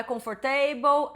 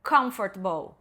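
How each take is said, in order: First: Comfortable as kom-FOR-ta-ble, every syllable said; spell-out comfortable, Brazilian style; wrong pronunciation. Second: Comfortable squeezed to KUMF-ter-bl; correct pronunciation. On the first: Teacher showing the typical error, comfortable in four full syllables. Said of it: "não é comfortable". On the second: Teacher modelling the right form, Comfortable in three beats. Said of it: "é". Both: Shown as a demonstration.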